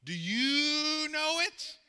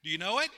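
First: "you" stretched long and high, rising to "know it"; drawn-out YOU. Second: Said in the usual way. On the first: Real, not acted. Preacher challenging the congregation, long high stretched "you". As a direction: hold the word "you" slowly, climbing into a question. Repeats question, drawn out teasingly.

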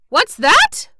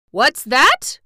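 First: Much higher, louder wail. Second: First wail, high and loud. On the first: Mister Cinnamon Bun repeats himself, wailing higher. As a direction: climb the wail into panic. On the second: Mister Cinnamon Bun cries out at the news, wailing. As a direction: start the alarm with a wail. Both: Acted. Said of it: "wailed Mister Cinnamon Bun".

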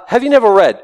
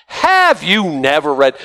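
First: Said in the usual way. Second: "Have you never read?" drawn out slowly and cuttingly; slow pointed rebuke. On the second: Retold or imitated. Jesus rebuking the Pharisees, slow and cutting. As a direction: land each word as a rebuke. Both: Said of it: "he just slapped them really hard".

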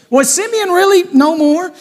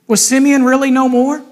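First: REALLY pushed high in disbelief; challenging question. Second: Said in the usual way. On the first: Shown as a demonstration. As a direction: lift "really" sharply and question it hard.

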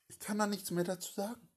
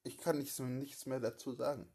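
First: Higher, faster retake. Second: Said in the usual way. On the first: Shown as a demonstration. Accused man refusing to say more, higher and hurried. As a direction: say it higher and quicker, stressing "da".

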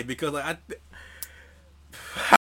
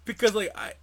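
First: Slow breathy whisper, dragged out; whispered mock stammer. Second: Said in the usual way. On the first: Mocking his own stumble to the co-host, slow whisper. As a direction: whisper it slowly, teasing the stumble.

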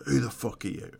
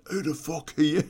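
First: Said in the usual way. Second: Higher, rising parroting of the question; mock echo. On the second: Man in bed echoing the intruder's question, higher and baffled. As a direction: throw the question straight back, baffled. Guy echoes the question back.

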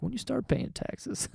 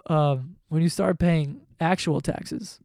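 First: Higher, softer, slower mock of his own words; mock-naive self imitation; mocking himself. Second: Said in the usual way. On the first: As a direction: parrot yourself like a clueless kid. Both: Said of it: "I sound so dumb".

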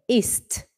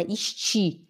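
First: "ist" in one syllable; correct pronunciation. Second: "ist" said as "ishti"; wrong pronunciation. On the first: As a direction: close "ist" on a crisp final t. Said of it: "é ist". (pronúncia correta, sem i no fim) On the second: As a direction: add a Brazilian i after the t of "ist". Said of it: "Não é ist". (pronúncia errada: "ishti") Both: Shown as a demonstration.

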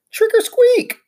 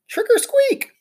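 First: High, loud squeaky shout. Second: High squeaky cry. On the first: Hamster in a ghost sheet shouting to the class. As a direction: shout it out like never before. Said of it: "began to shout, like I'd never shouted before". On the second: Hamster under a cloth crying out to the class. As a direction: call it out again, ghostly. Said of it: "I cried". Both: Acted.

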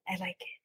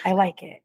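First: Hushed. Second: Said in the usual way. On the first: Shown as a demonstration. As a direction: drop to a near whisper. Echoing the phrase much softer.

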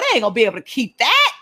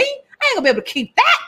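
First: Said in the usual way. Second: High, fast whine of the healed man; hammed-up high whine, healed man. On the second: Healed man voiced against plain take.

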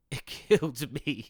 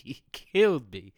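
First: 1 laughing. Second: 1 louder emphatic. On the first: Laughing at the memory. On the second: Repeats it with emphasis. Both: Real, not acted.

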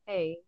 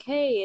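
First: Stale. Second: Higher, louder, eager hello; friendly greeting. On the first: Stale guest answering the host with no connection, unenthused. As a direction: mimic a guest giving nothing back. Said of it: "someone really stale". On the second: Host greeting a new guest to start a chat, eager. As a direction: greet them with real energy, as an example. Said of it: "there's, like, no real connection". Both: Retold or imitated.

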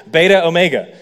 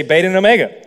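First: "beta omega" with a break between the two vowels; pause between vowels. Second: "beta and omega" run together as beta-n-omega; smooth linking N. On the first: Showing why Greek needs an N, halting "beta omega". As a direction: separate the end of "beta" from the start of "omega". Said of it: "there's no way that I can't not pause". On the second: Showing the added Greek N, smoothly joined "beta and omega". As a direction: link "beta" to "omega" with a quick N. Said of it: "smoother to pronounce". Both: Shown as a demonstration.

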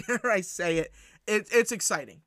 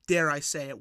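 First: Laughing. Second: Said in the usual way. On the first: Real, not acted. Laughs, repeats with excitement.

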